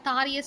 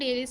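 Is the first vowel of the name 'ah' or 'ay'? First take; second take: ah; ay. First: The name begins with a 'thaa' sound. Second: The name begins with a 'day' sound. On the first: This is the Tamil form of the name. "தமிழில் சொல்லுவோம்" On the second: This is the English form of the name. "ஆங்கிலத்தில் சொல்லுவோம்"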